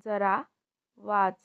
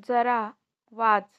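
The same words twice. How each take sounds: First: Said in the usual way. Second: Loud order to read; firm command. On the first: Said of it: "repeat drill, second take". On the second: Shown as a demonstration. Teacher tells the pupil to read, loud. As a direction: push them to read. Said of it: "repeat drill, first take".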